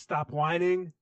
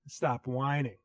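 First: It is said in a put-on foreign accent. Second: It is said in the speaker's normal accent.

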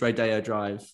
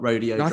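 First: The stress is on the second syllable. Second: The stress is on the first syllable. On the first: The speaker calls it right. "I'm 99% sure it's Rodeo Drive" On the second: The speaker calls it wrong. "not Rodeo Drive"

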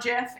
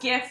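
First: The word starts with a soft G sound. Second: The word starts with a hard G sound. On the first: The speaker calls it wrong. "not GIF, in my opinion" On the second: The speaker calls it right. "it's GIF"

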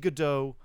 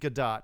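First: The name is said in a French-style pronunciation. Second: The name is said in an Israeli-style pronunciation. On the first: The name is treated as French. "If it was, she was French, it'd probably be Godot" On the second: The name is treated as Israeli. "I'm saying Gadot because she's Israeli"

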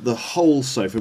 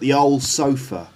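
First: The H sound at the start is pronounced. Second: The H sound at the start is dropped. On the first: "Not the whole sofa" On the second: "not pronouncing the H sound"

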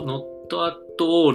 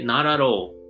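First: The words are said separately with breaks. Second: The words run together without breaks.

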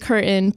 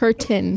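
First: The middle t sound is dropped. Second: The middle t sound is clearly pronounced. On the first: The speaker calls it wrong. "that's a pretty annoying habit when people drop the tea" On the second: The speaker calls it right. "Thank you"

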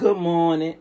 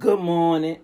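First: The greeting sounds cold and unpleasant. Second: The same.

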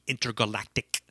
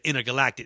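First: Every vowel is exaggerated and over-enunciated. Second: The word is said in a plain, normal way. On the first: "it'll be intergalactic" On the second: "Instead of intergalactic"

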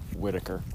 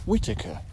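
First: The name is said with an American accent. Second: The name is said with a British accent. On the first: The speaker calls it wrong. "the Americanized version is just Whitaker" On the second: The speaker calls it right. "he has that very nice British pronunciation"

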